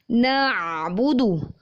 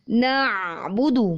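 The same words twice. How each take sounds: The two takes are said the same way.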